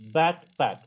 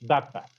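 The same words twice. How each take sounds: First: Both parts are said fully and carefully. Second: The two parts run together with a reduced sound. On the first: "B A C K, P A C K, backpack" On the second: "when we say it in the connected speech, it becomes"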